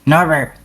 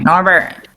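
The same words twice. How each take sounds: First: It is said in a quiet, hushed nighttime voice. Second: It is said in a put-on character voice. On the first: "nighttime voice" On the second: "in character voice"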